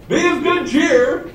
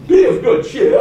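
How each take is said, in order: First: High, drawn-out, chirpy delivery; comically untroubled greeting; cheery Jesus. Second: High, loud mock English accent; hammed-up Englishman, high and hearty. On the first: Acted. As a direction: say it absurdly cheerfully, pitched way up. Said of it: "You almost hear him say". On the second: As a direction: put on a jolly English accent, pitched up. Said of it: "say in the English accent".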